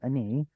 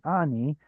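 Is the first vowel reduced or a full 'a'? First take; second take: reduced; full a. First: The first vowel is short and reduced. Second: The first vowel is a full open 'a'. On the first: This is the ordinary form used in context. "the usual form is this" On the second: This is the form used at a pause. "the pausal form is this one"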